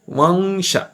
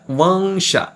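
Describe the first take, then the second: No difference in how they are said.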